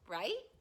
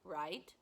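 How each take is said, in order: First: The pitch rises at the end. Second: The pitch falls at the end. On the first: It is a question. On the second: It is a plain statement.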